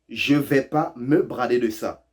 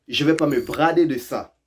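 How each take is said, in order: First: Each word laid out slowly for learners; slow, careful. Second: Said in the usual way. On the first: Shown as a demonstration. Teacher to learners, slowly spelling out the phrase. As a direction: spell it out slowly so they catch the dropped words. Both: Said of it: "Ils ont tout court oublié le «je ne vais pas»".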